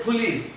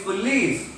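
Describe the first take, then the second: First: "police" with a wrongly puffed p; aspirated p. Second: "police" stressed on the second syllable, light p. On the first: Teacher showing the mistake, aspirated p. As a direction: put a burst of air on the p of "police". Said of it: "No, it's police". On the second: Teacher correcting the mistake, stress on second syllable. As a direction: lean on "lice" in "police". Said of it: "L receives the accent". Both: Shown as a demonstration.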